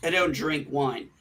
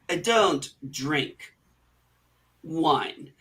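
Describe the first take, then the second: First: It is said plainly, without hesitation. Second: It is said hesitantly, as if thinking mid-line.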